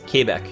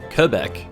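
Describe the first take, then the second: First: It is pronounced with French sounds, 'kay' sounding. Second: It is pronounced with English sounds, not French ones. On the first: "the proper way... Like K A Y sounding" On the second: "not the French way to say it"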